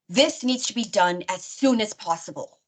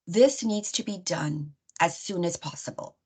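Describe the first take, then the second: First: It is said in an aggressive, assertive tone. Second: It is said in a calm, neutral tone. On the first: It may trigger someone who has experienced trauma. The speaker calls it wrong. "in a very kind of aggressive and assertive manner" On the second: It is delivered respectfully. The speaker calls it right. "in a neutral way"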